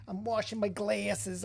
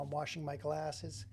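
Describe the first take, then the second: First: Slow, hammed-up [name] accent; bad [name] accent. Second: Said in the usual way. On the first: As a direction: do a terrible [name] prank-caller accent. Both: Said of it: "my terrible [name] accent".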